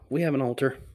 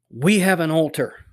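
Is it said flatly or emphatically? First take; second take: flatly; emphatically. First: It is said flatly, without emphasis. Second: It is said emphatically, almost militantly.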